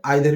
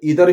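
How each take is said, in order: First: The first vowel sounds like 'eye'. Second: The first vowel sounds like 'ee'. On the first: "आइदर भी कह सकते हैं" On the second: "इसको हम इधर भी कह सकते हैं"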